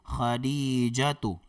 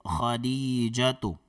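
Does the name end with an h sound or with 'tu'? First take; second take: tu; tu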